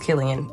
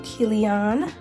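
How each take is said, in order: First: The name is said with a standard, plain pronunciation. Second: The name is said with a casual, flavored accent. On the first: The speaker calls it right. "it's Killian" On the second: The speaker calls it wrong. "I said it with a little flavor"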